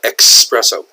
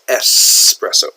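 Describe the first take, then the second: First: The word begins with an 'ex' sound. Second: The word begins with an 'es' sound. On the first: The speaker calls it wrong. "A lot of Americans call it espresso" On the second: The speaker calls it right. "It's not X, it's espresso"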